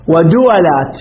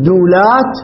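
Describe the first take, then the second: First: دولات said da-wa-lat, waw opened to a; دولات pronounced dawalat, three syllables; دولات with a short a after the waw; fatha on the waw. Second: دولات said dawlat, waw with sukun; دولات pronounced as two syllables, daw-lat; دولات with no vowel after the waw; silent waw. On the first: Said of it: "دولات بفتح العين". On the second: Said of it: "دولات بسكون عين". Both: Shown as a demonstration.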